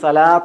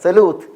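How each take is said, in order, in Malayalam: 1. മധ്യ സ്വരം aa പോലെയാണ്. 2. മധ്യ സ്വരം oo പോലെയാണ്. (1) "എല്ലാവരും ഇത് സലാത്ത് എന്നാണ് സ്വീകരിച്ചത്" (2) "സലൂത്ത് എന്നാ വായിക്കുക"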